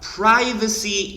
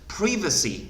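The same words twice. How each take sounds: First: It is said with the American pronunciation. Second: It is said with the British pronunciation. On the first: "요거는 이제 좀 미국인들이 선호, 선호하는 방아, 발, 발음이고요" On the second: "요거는 이제 영국 사람들이 어, 선호하는 발음입니다"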